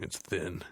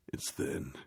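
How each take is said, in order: First: Said in the usual way. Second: Breathy whisper of the same words; whispered repeat. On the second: Shown as a demonstration. Whispering the complaint back to the listener. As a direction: drop to a whisper for emphasis.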